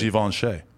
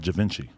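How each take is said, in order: First: The name is said in a posh, refined way. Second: The name is said in a plain, everyday way. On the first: This is how the name is supposed to be said. The speaker calls it right. "that's how fancy people say it" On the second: This is the common way people casually say it. The speaker calls it wrong. "that's just what we call it, but we know it ain't really called it"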